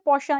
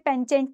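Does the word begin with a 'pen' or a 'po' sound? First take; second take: po; pen. First: It begins with a 'po' sound and ends 'sha'. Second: It begins with a 'pen' sound and ends 'chent'. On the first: The speaker calls it right. "इसकी pronunciation क्या होती है? पोशा।" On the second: The speaker calls it wrong. "इसे पेंचेंट नहीं कहना"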